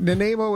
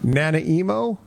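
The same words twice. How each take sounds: First: Nanaimo said nuh-NAY-mo; easy joke pronunciation. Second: Nanaimo said NANA-EE-mo; favourite mispronunciation. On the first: Host dismissing the easy joke, Nanaimo as nuh-NAY-mo. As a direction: say Nanaimo with NAY for the middle syllable. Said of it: "Nanaimo is an easy joke". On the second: Host offering a favourite version, Nanaimo as nana-EE-mo. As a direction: turn Nanaimo into nana plus EE-mo. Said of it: "Nanaimo's pretty great". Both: Shown as a demonstration.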